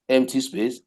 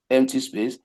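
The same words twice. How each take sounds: The two takes are said the same way.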